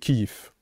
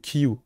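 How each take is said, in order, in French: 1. Le nom finit par un son de consonne « v ». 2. Le nom finit par une voyelle proche de « u ». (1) "en russe, je crois que c'est Kyiv" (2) "je crois qu'il est vocalique. Pour moi, c'est Kiyu"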